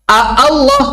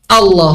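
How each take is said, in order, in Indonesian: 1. Dua bunyi 'a' terpisah memulai kata ini. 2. Satu bunyi 'a' memulai kata ini. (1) "nggak mungkin A Allah" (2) "kalau hamzahnya nggak dibaca"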